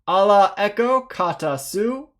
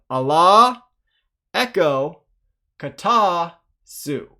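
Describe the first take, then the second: First: It is read fast, in one phrase. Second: It is read slowly, word by word.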